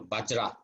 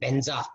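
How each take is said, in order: First: The word is said with a j sound, bajra. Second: The word is said with a z sound, benza. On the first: This is the modern Sanskrit reading. The speaker calls it right. "the modern Sanskrit" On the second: This is the traditional Tibetan reading. The speaker calls it wrong. "they read as if it's like Tibetan"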